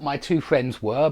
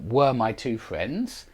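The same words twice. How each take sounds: First: Said in the usual way. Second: "were" drawn out slowly and leaned on; slow stress on were. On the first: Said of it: "And not". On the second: Shown as a demonstration. Teacher slowly stressing "were" for the class.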